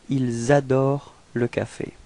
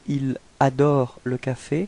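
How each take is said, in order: First: The s of ils is linked to adorent. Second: The s of ils is not linked to adorent. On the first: "the second one" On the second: "the first one"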